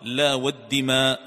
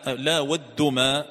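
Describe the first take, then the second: First: The vowel after the d is i. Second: The vowel after the d is u. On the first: The oath is by the blood of sacrificed animals. "فهي راجعة إلى الدماء التي كانت تذبح" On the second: The oath is by the idols. "بضم الدال"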